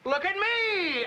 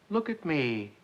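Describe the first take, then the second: First: It is said with loud excitement. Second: It is said calmly and evenly.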